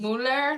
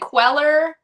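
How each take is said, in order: First: The name is said like 'cooler'. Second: The name is said like 'queller'. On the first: The speaker calls it right. "really Mueller, like cooler" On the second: The speaker calls it wrong. "people say queller"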